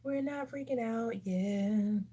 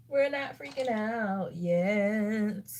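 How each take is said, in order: First: Slow, slightly raised, held-back delivery; drawn-out self-reassurance. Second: Very slow, stretched-out insistence; emphatic self-reassurance. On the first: Vlogger reassuring viewers mid-makeup, slow and restrained. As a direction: stretch it out to steady yourself. Reassures herself after a worrying result. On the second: Vlogger repeating the reassurance to herself, heavily drawn out. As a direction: drag the words right out, firmly. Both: Real, not acted.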